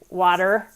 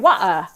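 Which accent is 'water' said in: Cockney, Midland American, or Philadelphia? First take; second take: Midland American; Cockney. First: It is said in a Midland American accent. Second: It is said in a Cockney accent. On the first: "If you're from, you know, a lot of Midland America, you'd say water" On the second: "If you're a Cockney, you say wah"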